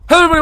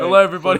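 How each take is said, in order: First: It is said very fast. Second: It is said at a slower pace.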